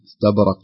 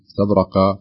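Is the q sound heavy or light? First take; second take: light; heavy. First: The q sound is only lightly emphatic. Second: The q sound is fully heavy and emphatic. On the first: The speaker calls it right. "نرقق أن نجعله في أقل مراتب التفخيم" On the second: The speaker calls it wrong. "ما أقول مستبرق استبرق"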